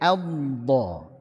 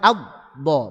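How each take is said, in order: First: The final consonant keeps flowing with continuous airflow. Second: The final consonant is cut off abruptly. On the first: The speaker calls it right. "Alirkan, alirkan, tekan" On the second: The speaker calls it wrong. "Jangan cuman elbow, bukan di, dijeda, bukan"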